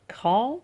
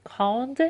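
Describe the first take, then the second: First: 'کران' ending in a nasal vowel, no d; nasal open ending on 'کران'; silent final consonant. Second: 'کراند' with the final d sounded; fully pronounced ending. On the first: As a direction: drop the d, end 'کران' in the nose. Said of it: "تلفظ نمیشه حروف پایانی". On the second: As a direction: release a clear d at the end of 'کراند'. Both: Shown as a demonstration.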